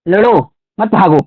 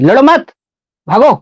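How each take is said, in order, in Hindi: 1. विराम पहले शब्द के बाद आता है। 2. विराम दूसरे शब्द के बाद आता है। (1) "अगर यहाँ कॉमा लगा दे रहे हैं" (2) "अगर कॉमा यही यहाँ कर दें तो ये जोर यहाँ दे दिए"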